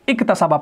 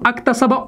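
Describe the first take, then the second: First: The word begins with an i vowel. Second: The word begins with an a vowel. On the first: The speaker calls it right. "बल्कि इक्तसबा पढ़ेंगे" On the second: The speaker calls it wrong. "अक्तसबा उक्तसबा नहीं पढ़ेंगे"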